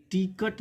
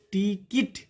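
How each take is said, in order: First: "टिकट" as ti-kat, with an uh ending syllable; "टिकट" with schwa before the final t; wrong pronunciation shown. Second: "टिकट" as ti-kit, short i in both syllables; higher, careful "टिकट" ending in -kit; correct pronunciation. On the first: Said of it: "टिकट नहीं". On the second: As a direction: model "टिकट" with -kit at the end. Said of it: "मतलब इसे टिकट नहीं पढ़ेंगे". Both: Shown as a demonstration.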